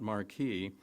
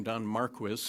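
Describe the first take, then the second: First: Marquis said as mar-KEE; French-style pronunciation. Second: Marquis said as MAR-kwis; anglicized pronunciation. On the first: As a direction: say Marquis with a K sound and silent final s. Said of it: "not Marquis". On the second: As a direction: say Marquis with a KW and a sounded final s. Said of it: "that is the way he pronounced his name". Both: Shown as a demonstration.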